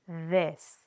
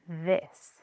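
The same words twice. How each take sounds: No difference in how they are said.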